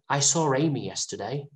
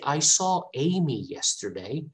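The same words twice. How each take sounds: First: A consonant sound links saw to Amy. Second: Saw and Amy join without an added consonant. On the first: "they want to add a, a consonant sound" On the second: "they want to say"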